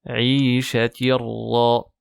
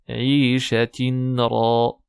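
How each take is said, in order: First: The n sound merges into the following r. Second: The n sound is pronounced before the r. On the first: The speaker calls it right. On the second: The speaker calls it wrong.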